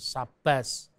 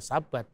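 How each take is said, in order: First: The word ends with an s sound. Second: The word ends with a t sound. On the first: This is how Western European dialects say it. "bukan Sabas" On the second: "orang Yahudi dari Yaman"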